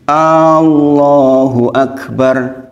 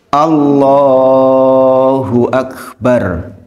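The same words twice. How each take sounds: First: The opening a sound is drawn out long. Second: The vowel in lah is drawn out long. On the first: It asks whether God is the greatest. The speaker calls it wrong. "hanya yang panjang. ... Apakah Allah Maha Besar?" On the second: God is the greatest. The speaker calls it right. "Yang benar gimana? ... Lohnya"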